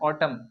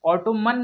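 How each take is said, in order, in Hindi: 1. आखिरी n नहीं बोला जाता। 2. आखिरी n बोला जाता है। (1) "एन लास्ट में ... साइलेंट है" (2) "ऑटोमन नहीं पढ़ेंगे"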